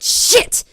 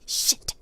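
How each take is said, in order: First: It is said very loudly. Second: It is said quietly and tightly.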